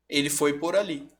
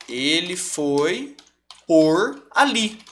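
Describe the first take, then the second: First: Said in the usual way. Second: "ele foi por ali" drawn out very slowly, word by word; slow example. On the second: Shown as a demonstration. Teacher to students, slowly dictating the example sentence. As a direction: stretch the phrase out so they can hear each word. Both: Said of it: "Então, ó".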